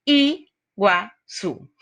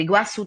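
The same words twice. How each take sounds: First: "Iguaçu" very slowly, a pause after each syllable; split into syllables. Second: Said in the usual way. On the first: Shown as a demonstration. Teacher dividing the word for students, "Iguaçu" syllable by syllable. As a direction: break "Iguaçu" into three separate parts, I, gua, çu. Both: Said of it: "tem três sílabas".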